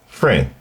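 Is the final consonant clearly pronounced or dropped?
dropped. The final consonant is softened or dropped.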